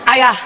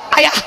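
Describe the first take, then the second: First: The call is somewhat higher in pitch. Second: The call is very high and shrill. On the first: The call is repeated because it was ignored. "suaranya naik setengah oktav" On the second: The caller has lost patience. "langsung naik tujuh oktav"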